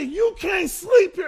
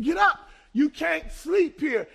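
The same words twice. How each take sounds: First: High, slow, loud hostile shout. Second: Sharp, rising command, slowing on the last words; slowing irritated command to the man on the step; irritated order. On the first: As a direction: let the old temper explode at him. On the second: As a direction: order him up with rising impatience. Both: Retold or imitated. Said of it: "I got hostile".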